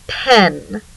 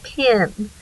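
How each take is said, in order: First: The vowel is a clear open 'eh' sound. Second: The vowel is raised to an 'ih' sound.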